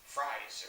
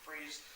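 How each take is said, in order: First: The vowel is an 'eye' sound, like rise. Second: The vowel is an 'ee' sound, like breeze. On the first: This is a changed pronunciation, possibly meant as a joke. The speaker calls it wrong. "to Fries" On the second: This is the name's usual, established pronunciation. The speaker calls it right. "they changed his last name pronunciation from Freeze"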